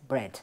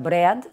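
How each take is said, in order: First: The word is said with one vowel sound. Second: The word is said with two vowel sounds. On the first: The speaker calls it right. "tiene solamente una vocal, con lo cual es bread" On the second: The speaker calls it wrong. "que tiene dos vocales, podemos pensar que sería bread"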